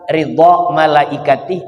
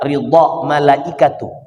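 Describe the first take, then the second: First: The last word ends with an 'i' vowel. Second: The last word ends with a 'u' vowel. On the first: It means the angels' pleasure, as a possessive phrase. "Kalau dibaca ridha malaikatihi, berarti ini yang disebut dengan idhofat" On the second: It means the angels are pleased, with angels as subject. "Kalau dibaca ridha malaikatuh, memang ridha adalah fi'il, kemudian malaikatuh dijadikan fa'il"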